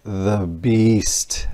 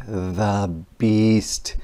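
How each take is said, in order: Both takes have the same delivery.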